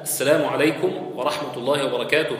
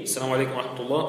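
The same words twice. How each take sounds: First: Said in the usual way. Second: السلام عليكم ورحمة الله said fast and much softer, as if turned away; the left-side salam, hushed and hurried; softer, quicker second greeting. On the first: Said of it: "لكن أكملها". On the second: Shown as a demonstration. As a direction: toss the shorter greeting off to the left. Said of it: "في اليسار".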